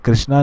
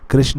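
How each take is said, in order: First: The name ends with a long final vowel. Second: The name ends without a long final vowel. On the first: This is a changed, anglicized form. The speaker calls it wrong. "कृष्णा नहीं" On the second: This is the original native form. The speaker calls it right. "कृष्ण है"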